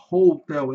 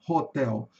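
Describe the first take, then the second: First: "hotel" with a long OH after the H; long vowel. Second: "hotel" with a short open O; "hotel" with H sounded but first vowel unglided; short vowel, wrong version. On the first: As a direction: say "hotel" as HOH-tel. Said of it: "Porque aqui vai ter uma vogal longa". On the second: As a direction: say "hotel" as HAW-tel, no long O. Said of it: "e não hotel". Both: Shown as a demonstration.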